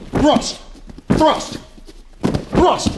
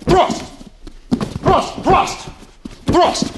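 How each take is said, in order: Both takes have the same delivery.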